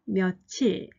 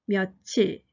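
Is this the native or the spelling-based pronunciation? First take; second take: native; native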